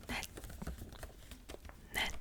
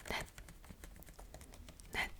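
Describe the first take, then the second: No difference in how they are said.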